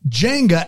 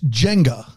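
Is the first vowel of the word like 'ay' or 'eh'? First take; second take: ay; eh. First: The first vowel sounds like 'ay'. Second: The first vowel sounds like 'eh'. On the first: The speaker calls it wrong. "A-N-G is wrong" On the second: The speaker calls it right. "It's Jenga. So J-E-N-G-A"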